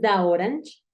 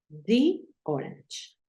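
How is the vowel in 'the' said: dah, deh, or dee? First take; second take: dah; dee. First: 'The' is said with an 'ah' vowel. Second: 'The' is said with an 'ee' vowel. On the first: The speaker calls it wrong. "Si tú dices da orange, queda como da hora" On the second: The speaker calls it right. "obligatoriamente tienes que pronunciar di"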